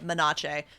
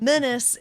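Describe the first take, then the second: First: The word ends with a 'sh' sound. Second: The word ends with an 's' sound. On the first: The speaker calls it wrong. "we keep pronouncing it Menache" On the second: The speaker calls it right. "but Menace is"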